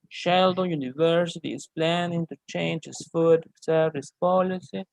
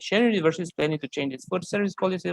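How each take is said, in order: First: It is read at a slow pace. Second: It is read at a fast pace.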